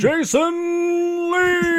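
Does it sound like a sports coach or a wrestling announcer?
wrestling announcer. It sounds like a wrestling announcer's drawn-out call.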